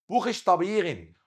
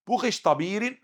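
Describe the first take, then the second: First: بوخش طبيغن with r as a throaty gh, higher; German R. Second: بوخش طبيرن with an Egyptian tongue-tip r, higher; Egyptian mispronunciation. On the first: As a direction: say the r in بوخش طبيغن like Arabic ghayn. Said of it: "الآر هنا نقلبها غين". (نطق بوخش طبيغن بالراء غين) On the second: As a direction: roll the r in بوخش طبيرن the Arabic way. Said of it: "مش هنطلق مصري بقى". (نطق بوخش طبيرن براء مصرية) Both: Shown as a demonstration.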